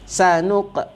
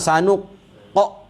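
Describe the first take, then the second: First: The final q has only a light bounce. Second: The final q has a strong, echoing bounce. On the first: The speaker calls it right. "Sikit saja" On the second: The speaker calls it wrong. "Jangan sanuq qa, ah, tak betul"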